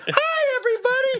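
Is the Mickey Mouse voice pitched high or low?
high. The Mickey voice starts very high.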